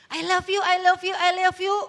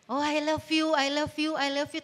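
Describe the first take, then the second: First: Loud, high mock declarations of love; hollow gushing. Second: Lightly mocked lovey-dovey repetition; empty declarations. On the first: Lover gushing with no commitment behind it, loud mocking. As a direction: gush it repeatedly, hammed-up and insistent. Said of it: "Nggak ada komitmennya". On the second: Lover professing love without any action, mildly mocking. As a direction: reel it off like words with nothing behind them. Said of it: "tapi actionnya nggak ada".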